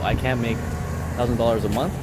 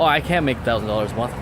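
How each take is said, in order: First: The voice rises at the end like a question. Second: The voice falls at the end like a statement. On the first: It is being questioned. "to a question" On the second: It is stated as a fact. "a factual statement"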